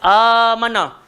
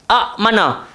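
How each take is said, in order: First: The first vowel is long, with no glottal stop. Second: A glottal stop follows the short first vowel. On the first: The second hamzah has been replaced by a long vowel. "Dekat amana dia jadi mad badal" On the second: This is the original form with two hamzahs. "Asal daripada amana adalah a'mana"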